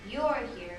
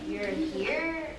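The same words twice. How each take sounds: First: The stress is on "you're". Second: The stress is on "here".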